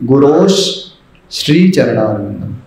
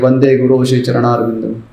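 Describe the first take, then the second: First: An 'sh' sound closes guru before shri. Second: Guru runs straight into shri with nothing added. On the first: "गुरु हो की जगह पे अब गुरु श" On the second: "या तो skip करते हैं"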